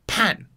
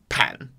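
First: It is said in the fourth tone. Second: It is said in the third tone. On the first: "bathroom or backyard is fourth tone" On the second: "Bedroom or living room is third tone"

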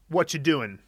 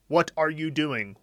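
First: The middle words are slurred and reduced together. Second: Every word is said fully and separately.

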